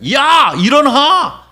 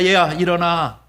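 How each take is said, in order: First: It is said with the highest, loudest voice. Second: It is said with a somewhat raised voice.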